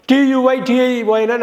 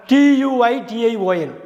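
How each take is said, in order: Both takes have the same delivery.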